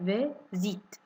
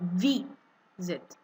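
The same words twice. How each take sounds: First: The stress is on the second syllable. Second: The stress is on the first syllable. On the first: The speaker calls it wrong. "I'm not saying visit" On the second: The speaker calls it right. "There's more stress on the first I"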